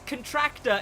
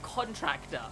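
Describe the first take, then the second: First: The stress is on the second syllable. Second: The stress is on the first syllable. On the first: The speaker calls it wrong. "like a contraction" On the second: The speaker calls it right. "it's supposed to be pronounced the contractor"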